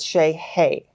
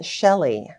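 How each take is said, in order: First: The middle consonant is an h sound. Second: The middle consonant is an l sound. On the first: This is how a local guide says it. "heavy accent on the Y E I" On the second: This is how the family was always told to say it. "we were always told that it was pronounced Shelley"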